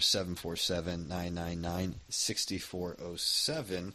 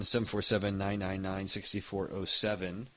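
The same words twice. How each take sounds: First: The number is read at a slower pace. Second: The number is read at a quicker pace.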